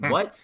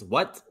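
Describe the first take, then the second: First: Higher, louder what, straining to hear. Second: A mildly lifted questioning what; puzzled what. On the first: Picturing a mumbling guy he can't hear, louder straining what. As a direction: push the repeat like you still can't hear. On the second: Picturing a mumbling guy he can't hear, puzzled what. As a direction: ask what as if you half missed it. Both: Retold or imitated. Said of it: "I'd be, like, always".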